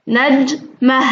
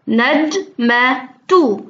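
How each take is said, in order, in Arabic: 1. الكلمة تنتهي بصوت 'a'، من غير 't'. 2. الكلمة تنتهي بـ 't' وبعدها صوت 'u'.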